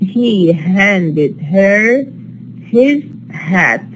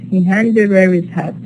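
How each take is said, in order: First: It is slow, with every h sound pronounced. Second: It is faster, with the h in her and his dropped. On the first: "when I read it uh, slowly, uh, I'm going to produce all the hats here" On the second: "I'm not producing the ha in her, and I'm not producing the ha in his"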